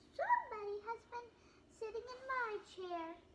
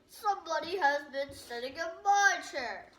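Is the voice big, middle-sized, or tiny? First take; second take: tiny; big. First: It is said in a wee little voice. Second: It is said in a great big voice.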